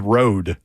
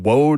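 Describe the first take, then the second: First: The word begins with a clear R sound. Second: The word begins with a W-like sound. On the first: "It doesn't sound like he says road" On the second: "It sounds like he says on the road again"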